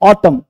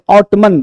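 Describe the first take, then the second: First: The word ends without an n sound. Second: An n sound is heard at the end. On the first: The speaker calls it right. "ऑटम पतझड़" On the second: The speaker calls it wrong. "बहुत लोग ऑटमन पढ़ते, तो ऑटमन नहीं"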